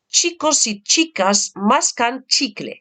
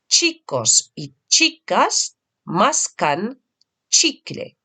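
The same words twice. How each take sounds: First: It is said at the quickest pace. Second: It is said a little faster. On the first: "à un rythme un peu plus vif" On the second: "un tout petit peu plus vite"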